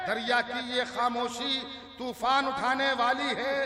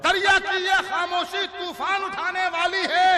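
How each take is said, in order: First: Said in the usual way. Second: High, loud declamation; forceful verse recital. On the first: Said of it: "किसी शेर को आराम से पढ़ूंगा". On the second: Acted. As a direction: project the couplet over the crowd. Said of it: "किसी शेर पर जोर लगाऊंगा". (ज़ोर लगाकर शेर पढ़ना)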